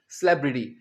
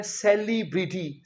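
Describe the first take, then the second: First: सेलिब्रिटी said "sleb-ri-ti", with the first vowel swallowed; the right way, सेलिब्रिटी as "slebriti"; correct pronunciation. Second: सेलिब्रिटी said the wrong way, with a full "se-li" start; the wrong version students use, सेलिब्रिटी as se-li-bri-ti; common mispronunciation. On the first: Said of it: "सेलिब्रिटी नहीं". (सेलिब्रिटी का सही उच्चारण, स्लेब-रि-टी) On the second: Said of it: "कई students इसे बोलते हैं". (सेलिब्रिटी का गलत उच्चारण, से-लि-ब्रि-टी) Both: Shown as a demonstration.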